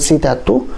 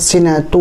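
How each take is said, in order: First: The word is said with a 't' sound. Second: The word is said with an 'n' sound. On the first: The speaker calls it wrong. "dibaca dengan sitatu" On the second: The speaker calls it right. "ayat sinatu wala naum"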